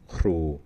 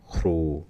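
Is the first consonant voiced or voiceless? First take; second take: voiceless; voiceless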